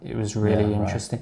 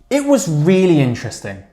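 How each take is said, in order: First: It starts flat, with little energy. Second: It starts with strong, lively energy. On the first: The speaker calls it wrong. "starting flat" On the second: The speaker calls it right. "I'm hitting it very hard from the start"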